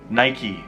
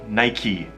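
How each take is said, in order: First: It is said with an American pronunciation. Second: It is said with an American pronunciation.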